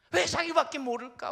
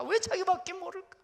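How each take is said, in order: First: 왜 hit loud and high; loud questioning 왜; stress on 왜. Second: 왜 hit higher still; repeated shouted 왜; stress on 왜. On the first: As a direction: punch the word 왜. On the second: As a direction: punch 왜 even higher. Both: Shown as a demonstration.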